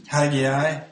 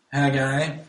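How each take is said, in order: First: "Haggai" said as hag-ee-eye, in three syllables; one pronunciation. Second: "Haggai" said as hag-eye, in two syllables, ending on a rise; other pronunciation. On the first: Preacher showing one way to say "Haggai", as hag-ee-eye. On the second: Preacher showing the other way to say "Haggai", as hag-eye. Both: Shown as a demonstration. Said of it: "depending on how you want to pronounce it".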